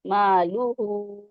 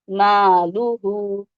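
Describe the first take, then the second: First: "مالوہو" slow, with the hu held two counts; two-count madd. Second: "مالوہو" spoken slowly and louder, each syllable apart; "مالوہو" deliberately stretched. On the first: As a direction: hold the end of "مالوہو". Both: Shown as a demonstration. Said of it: "ٹو count پڑھیں گے".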